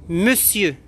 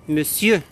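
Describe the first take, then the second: Both takes have the same delivery.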